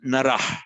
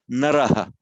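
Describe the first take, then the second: First: It ends in a rasping h with no vowel. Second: It ends in h plus a faint echoed vowel. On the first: "with a kind of rasping H" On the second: "with a slight echo of the vowel"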